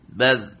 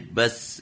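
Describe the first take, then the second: First: The final consonant is a soft th sound. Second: The final consonant is a hissing s sound. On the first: The speaker calls it right. "Za, zi, zu, baz" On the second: The speaker calls it wrong. "itu jadi enggak boleh bas gitu"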